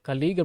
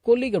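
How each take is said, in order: First: The first vowel sounds like 'a'. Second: The first vowel sounds like 'o'. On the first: "கலீக் அப்படின்னு உச்சரிச்சுக்கலாம்" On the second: "கொலீக் அப்படின்னு கூட உச்சரிச்சுக்கலாம்"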